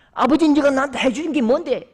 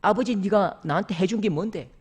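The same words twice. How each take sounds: First: Louder, raised, bitter comeback; a son's mock-furious shout; defiant retort. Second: Said in the usual way. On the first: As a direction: hurl it back at his father. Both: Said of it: "벌떡 일어서더니".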